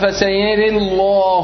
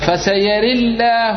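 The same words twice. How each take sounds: First: The 'l' in Allah is thick and heavy. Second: The 'l' in Allah is thin and light. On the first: "تفخيم" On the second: "ترقيق"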